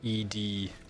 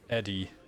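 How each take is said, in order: First: It is said as two separate letters. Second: It is said quickly, blended into one word. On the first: "abbreviated E D" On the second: "if you just speak that really fast"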